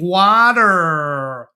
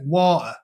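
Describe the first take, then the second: First: It is said in an American accent. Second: It is said in a British accent. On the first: "And they're like, "Oh, you mean water."" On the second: "because I'll say water"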